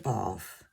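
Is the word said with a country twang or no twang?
no twang. It is said without a country twang. "I will say"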